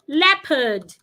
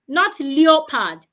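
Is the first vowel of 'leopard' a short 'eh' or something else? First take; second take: short eh; something else. First: The first vowel is a short eh. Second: The first vowel is not a short eh. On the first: The speaker calls it right. "I can have it in words like leopard" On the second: The speaker calls it wrong.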